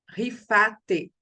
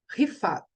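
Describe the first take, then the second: First: The name ends with a vowel after the t. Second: The name ends sharply on the t. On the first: This is the Portuguese form of the name. "em português" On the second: This is the Hebrew form of the name. "Em hebraico"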